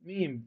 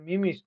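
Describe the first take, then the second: First: The word is said with one syllable. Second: The word is said with two syllables. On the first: The speaker calls it right. "উচ্চারণটা হবে মিম" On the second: The speaker calls it wrong. "এটা মিমিস না"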